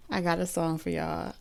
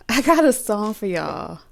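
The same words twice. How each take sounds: First: Said in the usual way. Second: Higher, louder, laugh in the voice. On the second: Real, not acted. Reader telling viewers she has a song, laughing. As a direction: announce it through amusement. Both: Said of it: "I'm laughing because".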